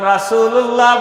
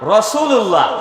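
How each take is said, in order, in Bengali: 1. প্রথম স্বরধ্বনিটি একটি খোলা, উজ্জ্বল 'a'। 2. প্রথম স্বরধ্বনিটি একটি গাঢ়, গোলাকার 'o'-এর মতো শব্দ। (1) "রাসূলুল্লাহ বলা যাবে না" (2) "বলা যাবে রসুল্লাহ"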